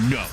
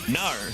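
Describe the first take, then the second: First: The word has a plain rounded 'oh' vowel. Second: The word ends in an open 'ar'-like vowel. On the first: The speaker calls it right. "Say no. Like, no. Say it like that" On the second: The speaker calls it wrong. "you're saying nar"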